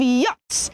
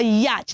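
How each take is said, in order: First: Yacht as "yots"; an "o" vowel in yacht, no ch; correct pronunciation. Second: Yacht as "yatch"; wrong pronunciation. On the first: Teacher using the word in an example, correct yacht. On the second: Teacher contrasting the mistake, slow mispronounced yacht. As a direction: sound the ch in yacht, short a. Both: Shown as a demonstration. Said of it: "not a yacht".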